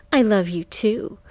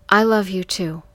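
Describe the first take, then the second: First: Raised, mocking mimicry. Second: Said in the usual way. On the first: A narrator's reading. Johnny mimicking her words to Michael, mocking. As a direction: mimic it back tauntingly, rising at the end. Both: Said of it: "in a mocking voice".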